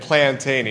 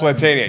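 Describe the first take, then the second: First: An extra n sound comes before the t. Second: There is no n sound before the t. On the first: The speaker calls it wrong. "I say it Plantania" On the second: The speaker calls it right. "You say it right"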